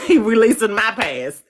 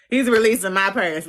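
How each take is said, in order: First: Laughing. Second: Said in the usual way. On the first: Real, not acted. Laughing repeat of astrology quip.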